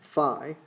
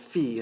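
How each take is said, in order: First: The word has an anglicized pronunciation. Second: The word has a Greek-style pronunciation. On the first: The speaker calls it wrong. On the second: The speaker calls it right.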